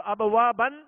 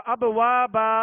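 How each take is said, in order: First: "ابوابن" ending on a sounded n; tanween ending. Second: "ابوابا" recited louder, ending on long open aa; alif stop. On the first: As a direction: recite "ابوابن" closing on -ban. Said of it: "دو زبر کی تنوین کو". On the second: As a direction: hold the final -baa of "ابوابا", no n. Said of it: "الف سے بدل کر ہم نے وقف کیا". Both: Shown as a demonstration.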